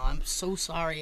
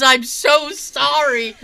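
First: Low, soft, discreet apology; confiding Roger Moore. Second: Put-on loud, high, drawn-out childlike apology; excited kid. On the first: Retold or imitated. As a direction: apologise under cover, voice dropped. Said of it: "he kinda leans in and he goes". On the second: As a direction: gush it like an overawed kid. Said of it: "And he's like".

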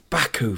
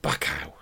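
First: "Baku" ending in a clear "oo"; "Baku" said bah-koo, not back-ow; corrected pronunciation. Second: "Baku" ending in "ow", as in cow; soft "Baku" said back-ow; mistaken pronunciation. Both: Retold or imitated. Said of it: "not Baku".

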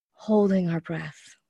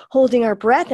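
First: Sharp gasp, then slow words on a held breath; slow gasping hold of breath. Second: Tense, loud, rising, as if holding your breath; breath held tight. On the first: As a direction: catch the air and let the words out slowly. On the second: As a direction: squeeze the words out with lungs held full. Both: Shown as a demonstration. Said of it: "if you can see my hands".

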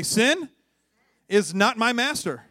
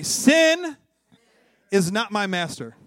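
First: Raised, slow declaration for repeating; leading call-out. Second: Loud, high SIN, then a firm finish; emphatic conviction. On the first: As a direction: lead the congregation in a declaration. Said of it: "Just say this with me". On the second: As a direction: belt it out so they believe it. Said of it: "some of you guys didn't even believe it". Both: Shown as a demonstration.

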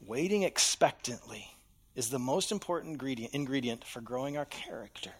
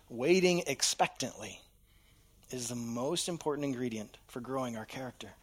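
First: Voiced start dropping to a breathy whisper; hushed key truth; fading to whisper. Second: Said in the usual way. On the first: Shown as a demonstration. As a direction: let it sink in, trail into a whisper. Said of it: "key line, fading to whisper". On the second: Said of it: "key line restated".

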